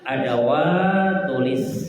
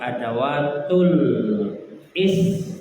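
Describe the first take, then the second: First: The words are linked smoothly with no break. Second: The words are split with a break before 'is'. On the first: The speaker calls it right. "yang lebih tepat" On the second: The speaker calls it wrong.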